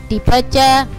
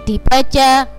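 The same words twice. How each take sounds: The two takes are said the same way.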